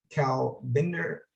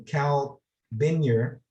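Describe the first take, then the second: First: "Cal Binder" said slowly, with a plain d sound, a slip; mispronounced name. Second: "Cal Binyar" with a y sound in place of the d; corrected name. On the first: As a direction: stumble on "Cal Binder" at an unsure slow pace. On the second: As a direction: fix it to "Cal Binyar", y not d. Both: Real, not acted. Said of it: "excuse me".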